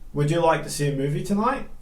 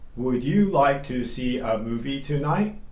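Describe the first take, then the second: First: 'Would you like to' is reduced and linked. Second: 'Would you like to' is said in full, unreduced. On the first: The speaker calls it right. "So it would reduce to" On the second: The speaker calls it wrong.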